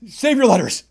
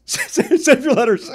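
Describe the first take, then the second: First: Said in the usual way. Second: Laughing through "Save your letters", slow and higher. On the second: Real, not acted. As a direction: give up and laugh while repeating it. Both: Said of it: "repeated laughing".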